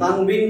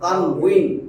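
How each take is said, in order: First: The middle consonant is pronounced as a b. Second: The middle consonant is pronounced as a w. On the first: The speaker calls it wrong. "তানবিন না তো" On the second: The speaker calls it right.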